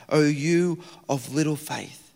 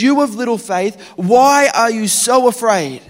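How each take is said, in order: First: Softer, slow, sorrowful chiding; gentle rebuke. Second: High, loud scolding voice; loud rebuke. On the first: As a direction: say it like a patient, disappointed teacher. Quoting Jesus' rebuke. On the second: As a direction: rebuke them over the wind. Jesus rebukes in the storm. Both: Acted.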